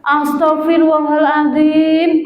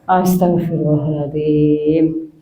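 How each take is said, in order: First: It is said in an angry, snapping tone. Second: It is said in a humble, remorseful tone.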